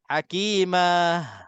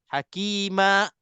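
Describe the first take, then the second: First: The word ends with a breathy h sound. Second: The word ends with a sudden glottal catch. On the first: "terlebih relax... keluar angin sikit je, itu huruf ha sebenarnya" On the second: "kita tahan nafas terus. Ah, itu dia akan jadi hakima... seolah-olah ada hamzah"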